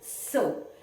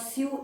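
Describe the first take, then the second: First: The word sounds just like 'so'. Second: The vowel does not sound like 'so'. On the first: The speaker calls it right. "The pronunciation is like S O, so" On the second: The speaker calls it wrong. "It's not sew"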